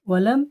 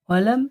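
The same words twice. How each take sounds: Both takes have the same delivery.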